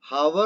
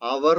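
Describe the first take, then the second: First: The word begins with an h sound. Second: The word begins with a vowel sound. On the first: The speaker calls it wrong. "ഹവർ എന്നല്ല നമ്മൾ പറയുക" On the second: The speaker calls it right. "അവർ എന്നാണ് പറയുക. അവിടെ എച്ച് നമ്മൾ ഉച്ചരിക്കാറില്ല"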